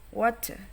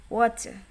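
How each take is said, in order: First: It is said in an American accent. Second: The same.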